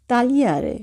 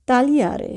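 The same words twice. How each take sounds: The two takes are said the same way.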